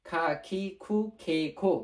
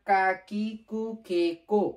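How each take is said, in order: First: খা, খি, খু, খে, খো with a puff of air after each k; aspirated kh pronunciation. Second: কা, কি, কু, কে, কো with a plain unaspirated k; written k pronunciation. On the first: Teacher showing how Japanese speakers say it, aspirated খা, খি, খু, খে, খো. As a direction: recite খা, খি, খু, খে, খো with breathy kh onsets. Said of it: "ওরা যখন প্রনাউন্সিয়েশন করে তখন এটাকে". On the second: Teacher showing the written form, কা, কি, কু, কে, কো with hard plain k. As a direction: recite কা, কি, কু, কে, কো loudly, no puff after the k. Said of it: "উচ্চারণ করার ক্ষেত্রে খর মতো উচ্চারণ হবে".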